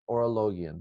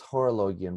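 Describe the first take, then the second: First: The word begins with a vowel sound. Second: The word begins with an h sound. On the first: This is how the speaker was taught it. "I was taught Orologion" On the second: Someone else pronounces it this way. "he says Horologion"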